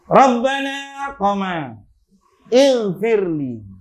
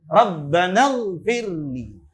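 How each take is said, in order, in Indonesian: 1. Ada jeda setelah 'Rabbana' sebelum kata berikutnya. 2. Kedua kata disambung tanpa jeda. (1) "Ketika Rabbana ada komanya" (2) "kalau tidak ada koma di sini"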